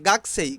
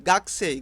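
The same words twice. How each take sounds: First: The vowel after the k is dropped. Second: The same.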